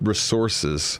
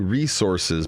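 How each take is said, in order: First: It is said in her British-sounding accent. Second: It is said in the speaker's own American accent.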